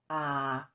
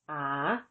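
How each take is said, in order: First: The syllable is said with a low tone. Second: The syllable is said with a rising tone. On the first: "With tone mark one, the tone is low" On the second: "With tone mark four, the tone is rising"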